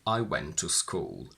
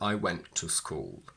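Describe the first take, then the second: First: The two T sounds merge into one. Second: The two T sounds are kept apart. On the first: The speaker calls it right. "we usually merge them together without a glottal stop. So I would say" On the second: The speaker calls it wrong. "rather than"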